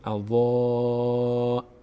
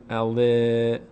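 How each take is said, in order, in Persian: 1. مصوت سنگینه، دهان به سمت بالا باز میشه. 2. مصوت سبکه، دهان به سمت بالا باز نمیشه. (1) "دهان رو سمت بالا باز میشه" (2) "نگین اوا"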